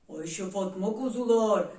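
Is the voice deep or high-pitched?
deep. It is said in a deep, thick voice. "Kalın sesiyle"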